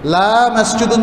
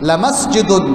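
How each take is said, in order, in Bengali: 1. প্রথম স্বরধ্বনিটি দীর্ঘ, টেনে উচ্চারণ করা হয়। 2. প্রথম স্বরধ্বনিটি হ্রস্ব, টানা হয় না। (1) "সেখানে লা টানলে অর্থ বিপরীত হয়ে যায়" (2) "যেখানে লামের সাথে আলিফ নেই"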